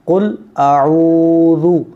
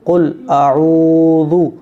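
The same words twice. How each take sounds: No difference in how they are said.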